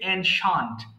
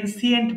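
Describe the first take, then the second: First: The ending is said 'shunt'. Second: The ending is said 'see-ent'. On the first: The speaker calls it right. "সঠিক উচ্চারণ হচ্ছে অ্যানশান্ট" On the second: The speaker calls it wrong. "অনেকে এনসিয়েন্ট বলে"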